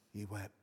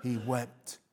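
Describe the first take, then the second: First: Softer, trailing away; hushed echo. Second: Said in the usual way. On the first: Real, not acted. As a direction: let it fade to a hush. Repeating for effect.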